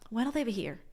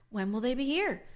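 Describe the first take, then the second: First: It is said fast with words run together. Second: It is said slowly with each word full.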